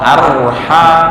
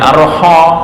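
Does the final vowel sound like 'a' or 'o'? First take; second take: a; o. First: The final vowel sounds like a. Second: The final vowel sounds like o. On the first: The speaker calls it right. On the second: The speaker calls it wrong. "Bukan arho"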